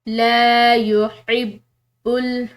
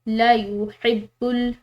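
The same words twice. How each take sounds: First: The vowel in 'la' is held long. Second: The vowel in 'la' is clipped short. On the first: The speaker calls it right. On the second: The speaker calls it wrong.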